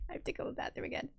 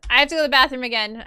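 First: Rushed, unvoiced whisper. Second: Fast and louder, punching have; louder, quick. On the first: Telling the stream viewers she needs the bathroom, quick whisper. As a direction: hurry the confession out in a whisper. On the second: Apologising to the stream viewers, quick and louder. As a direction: blurt it out quickly. Repeats bathroom news aloud. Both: Real, not acted.

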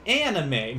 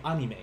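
First: "Anime" with the flat A of "cat"; English pronunciation. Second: "anime" with an open "ah", AH-nee-meh; Japanese pronunciation. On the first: Retold or imitated. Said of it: "some of us are like". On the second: Shown as a demonstration. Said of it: "No, not in Japanese".

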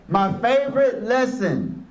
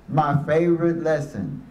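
First: First take pitched higher, with favorite stressed; a higher, eager My favorite lesson; raised announcement. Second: Second take dropped lower, savoring favorite; a low, relishing My favorite lesson; lower repeat. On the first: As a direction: announce it brightly. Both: Shown as a demonstration.

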